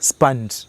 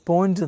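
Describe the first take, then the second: First: The vowel sounds like the 'u' in 'sun'. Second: The vowel sounds like the 'o' in 'go'. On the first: The speaker calls it right. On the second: The speaker calls it wrong. "ഇത് യഥാർത്ഥത്തിൽ pronounce ചെയ്യണത് സ്പോഞ്ച് എന്നല്ല"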